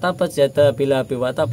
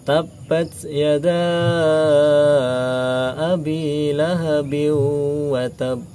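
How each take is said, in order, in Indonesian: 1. Vokal setelah 'yad' dibaca pendek. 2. Vokal setelah 'yad' dibaca panjang. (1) "bukan ... langsung seperti itu" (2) "itu kan ada bacaan mat"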